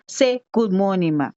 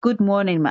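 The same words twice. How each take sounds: First: Parroting the prompt word for word; child parroting. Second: Said in the usual way. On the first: Retold or imitated. To the teacher, the child repeats the instruction mechanically. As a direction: copy the whole line back, including say. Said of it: "And the child says". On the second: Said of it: "just say".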